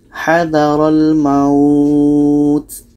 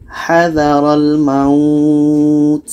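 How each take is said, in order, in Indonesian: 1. Vokal pada kata terakhir dibaca panjang. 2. Vokal pada kata terakhir dibaca panjang.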